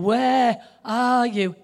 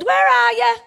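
First: It is said with dramatic, heavy expression. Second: It is said plainly, without dramatic expression.

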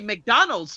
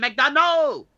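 First: The stress falls on the usual syllable. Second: The stress falls on an unusual syllable. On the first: "if I say McDonald's to someone, they don't understand that" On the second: "They understand McDonald's"

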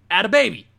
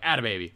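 First: The stress falls on the word 'baby'. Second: The stress falls on the word 'add'. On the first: It sounds like adding in a baby. The speaker calls it wrong. "it's add a baby. It's like adding in a baby" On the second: This is the usual way people say the phrase. The speaker calls it right. "not like, add a baby"

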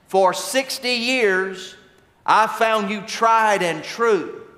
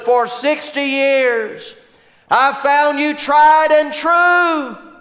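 First: It is said at a soft, normal level. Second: It is yelled as loudly as possible.

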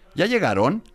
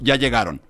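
First: The voice rises on the last syllable. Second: The voice falls on the last syllable.

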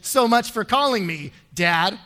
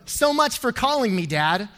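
First: There is a clear pause before Dad. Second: The words run together with no pause before Dad. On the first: The speaker's father did not call as promised. The speaker calls it right. "the correct way to say it is" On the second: Nobody wants to call the speaker Dad. The speaker calls it wrong. "Who wants to call you Dad? No one"

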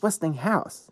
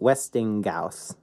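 First: The middle is a plain ng before house. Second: The middle has a hard g sound like ghost. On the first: "no, it's Westinghouse" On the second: "when you have the G and the H next together, it's going to sound like ghost"

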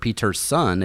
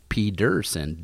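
First: The middle consonant is a T sound. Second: The middle consonant is a D sound. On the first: The speaker calls it wrong. "not Peterson" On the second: The speaker calls it right. "it's pronounced Pedersen, with a D"

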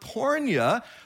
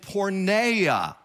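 First: It is said in the non-Erasmian Greek pronunciation. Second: It is said in the Erasmian Greek pronunciation.

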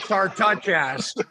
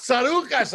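First: A t sound follows the r. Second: No t sound follows the r. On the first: The speaker calls it wrong. "So they put a T after the R" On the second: The speaker calls it right. "it's Tsarouchas. I didn't touch anyone's ass"

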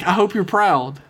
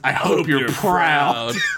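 First: It is said in a warm, sincere tone. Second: It is said in a menacing, passive-aggressive tone. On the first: The writer is genuinely congratulating the hosts. "That had to have been like" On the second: The writer is reproaching the hosts. "but I immediately read it as"

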